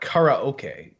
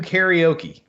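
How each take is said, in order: First: Karaoke is said in a deliberately careful pronunciation. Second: Karaoke is said in the usual everyday way. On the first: The speaker calls it right. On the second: The speaker calls it wrong.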